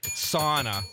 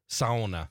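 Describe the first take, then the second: First: It is said with an ordinary American pronunciation. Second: It is said with a Finnish-influenced regional pronunciation. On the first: This is how people elsewhere say it. "Sauna for the people here" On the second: This is how people in the region say it. "let's pretend we're both in the UP right now. How would you have pronounced that?"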